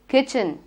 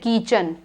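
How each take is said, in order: First: The first vowel is a short i sound. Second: The first vowel is a long ee sound. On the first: The speaker calls it right. "It is kitchen" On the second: The speaker calls it wrong. "We don't say kitchen"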